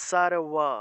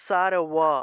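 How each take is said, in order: The two takes are said the same way.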